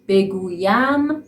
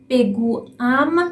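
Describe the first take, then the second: First: A 'y' glide joins the stem and ending. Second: The vowels meet directly with no glide between. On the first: The speaker calls it right. "اما بگویم خیلی راحت تره" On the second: The speaker calls it wrong. "تلفظ بگویم راحت نیست"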